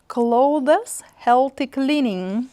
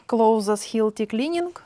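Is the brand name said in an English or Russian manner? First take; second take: English; Russian. First: The name is said with an English-style pronunciation. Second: The name is said with a Russian-style pronunciation.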